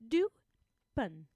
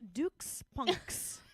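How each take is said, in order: First: The final X sound is dropped entirely. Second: The final X is sounded as K and S. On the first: "I'm gonna drop that final consonant deletion here" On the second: "Like a like a like a K and S phonetically"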